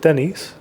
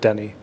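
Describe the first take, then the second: First: The name ends with an s sound. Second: The name ends without an s sound. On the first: The speaker calls it wrong. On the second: The speaker calls it right.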